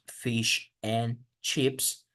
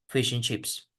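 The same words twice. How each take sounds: First: Every word is said fully and separately. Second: The words run together with sounds dropped. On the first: The speaker calls it wrong. "En vez de decir" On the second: The speaker calls it right.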